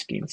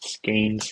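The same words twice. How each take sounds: First: The vowel is an 'ee' sound, rhyming with peens. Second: The vowel is an 'ay' sound, rhyming with pains. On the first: The speaker calls it right. "It is skeins like peens" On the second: The speaker calls it wrong. "Not skeins like pains"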